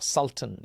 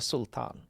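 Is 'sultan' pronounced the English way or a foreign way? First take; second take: English; foreign. First: The word is said with an English pronunciation. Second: The word is said with a non-English pronunciation.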